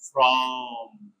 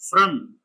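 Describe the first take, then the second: First: The vowel is full and unreduced. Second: The vowel is short and reduced. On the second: "Weak form"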